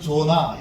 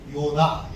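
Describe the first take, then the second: First: The name begins with a J sound. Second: The name begins with a Y sound. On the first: This is how English speakers say the name. "미국 사람들은 조나 이렇게 읽게 되고" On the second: This is closer to the original Hebrew name. "우리는 요나 이렇게 읽습니다"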